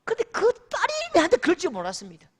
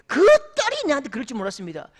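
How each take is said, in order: First: Mock outraged, higher and fast. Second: Mock outraged, louder and fast, stressing 딸이. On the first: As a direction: blurt it out as the wounded father. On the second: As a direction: hammer 딸이 as the betrayed father. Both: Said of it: "화를 내시는데요".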